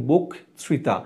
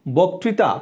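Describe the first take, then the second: First: "বক্তৃতা" as bok, then trita, closed o; teacher's model "বক্তৃতা", rounded first vowel, broken into bok-trita; closed-vowel pronunciation. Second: Said in the usual way. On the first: Shown as a demonstration. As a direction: split "বক্তৃতা" after the k. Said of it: "তাহলে হবে কি?". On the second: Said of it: "যার জন্য উকার হবে".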